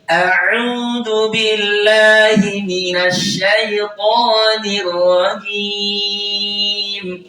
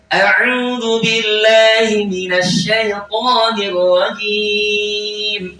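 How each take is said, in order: First: The phrase is recited at a medium pace. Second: The phrase is recited at a fast pace. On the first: "kalau saya baca sedang" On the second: "kalau saya percepat"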